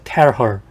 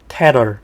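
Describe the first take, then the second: First: The h in 'her' is clearly pronounced. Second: The h in 'her' is weak, nearly dropped.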